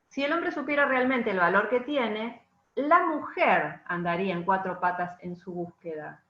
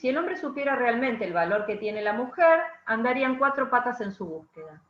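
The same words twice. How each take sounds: First: The pause comes after the word tiene. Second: The pause comes after the word mujer.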